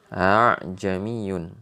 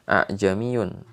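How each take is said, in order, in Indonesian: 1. Hamzah kedua dilunakkan menuju vokal. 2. Hamzah kedua dibaca penuh dan jelas. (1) "Bacaannya adalah a'jamiyun" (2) "orang biasa kita akan dibaca a'jamiyun, tapi ternyata bacaannya bukan begitu"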